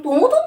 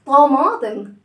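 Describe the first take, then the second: First: "طموطم" with oo in place of long aa; mispronounced "طموطم", oo where aa belongs; wrong vowel demo. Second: "طماطم" with a long open aa; correct vowel demo. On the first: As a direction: say "طموطم" with rounded oo vowels, as a questioned mistake. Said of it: "أنا ما بقولش طموطم". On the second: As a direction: say "طماطم" loudly, stretching the aa after the m. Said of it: "أنا بقول إيه؟". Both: Shown as a demonstration.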